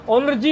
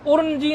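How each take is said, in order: First: उन्रजी with n leading into r; n before r. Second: उर्नजी with r leading into n; mispronounced. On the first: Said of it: "होना चाहिए उच्चारण". (उन्रजी में नकार पहले) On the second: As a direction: say उर्नजी wrongly as ur-n-ji. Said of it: "ये गलती करते हैं". (उर्नजी में रेफ पहले) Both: Shown as a demonstration.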